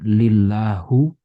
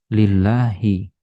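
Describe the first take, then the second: First: The word ends with a u vowel. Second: The word ends with an i vowel. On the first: The speaker calls it wrong. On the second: The speaker calls it right. "Makanya ini dibaca kasroh"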